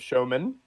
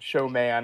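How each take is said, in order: First: The second syllable has a reduced vowel. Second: The second syllable has a full vowel.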